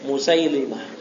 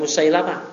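First: The vowel after the 'l' is 'i'. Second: The vowel after the 'l' is 'a'. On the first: The speaker calls it right. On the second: The speaker calls it wrong. "bukan Musailamah"

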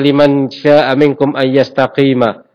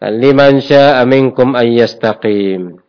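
First: The last word ends with a short 'a' vowel. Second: The last word ends on the consonant 'm'.

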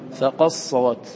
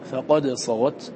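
First: The d merges completely into the s. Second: The d is pronounced clearly before the s. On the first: This is how other readers recite it. "غيرنا يقرأ" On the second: This is the speaker's own reading tradition. "نحن نقرأ بالإدغام بالإظهار"

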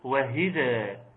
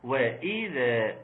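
First: An h sound follows the first syllable. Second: A glottal stop follows the first syllable. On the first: The speaker calls it wrong. "بالهاء" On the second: The speaker calls it right. "حقق الهمزة"

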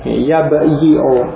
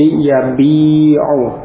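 First: A y sound with short i follows the b. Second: A long i vowel directly follows the b. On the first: This is the underlying original form. "asalnya adalah yabi'u. Yabi'u, asalnya demikian" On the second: This is the actual form after the vowel shift. "Kemudian harakatnya digeser. Ya, menjadi yabi'u"

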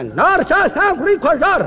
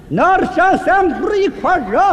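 First: The phrase is spoken quickly. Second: The phrase is spoken very slowly. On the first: "英国话速度快的不能放慢了" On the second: "再慢点"

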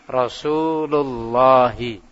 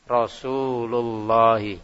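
Both takes have the same delivery.

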